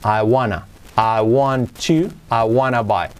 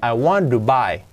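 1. Want y to se unen en una sola palabra, wanna. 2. Want y to se pronuncian como palabras separadas. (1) "se acaba derivando en ese I wanna buy" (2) "Y ese to, fijaos, se hace esa T con una resuelve"

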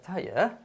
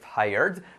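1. Se dice con acento británico. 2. Se dice con acento americano. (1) "En Inglaterra" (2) "En Estados Unidos"

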